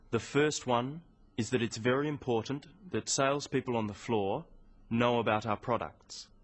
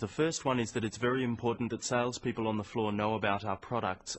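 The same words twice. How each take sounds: First: It has small pauses after phrases. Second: It is said without pauses between phrases.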